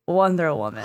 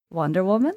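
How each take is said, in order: First: Low, gently falling confirmation; lightly voiced charmer, quietly certain; imitated island-breeze voice. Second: Lightly voiced, soft questioning lilt; a hint of a breezy charmer, wondering; imitated island-breeze voice. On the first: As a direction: state it low and easy, like an answer. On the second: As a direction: ask gently, voice rising at the end. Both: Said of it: "a voice that sounds like an island breeze".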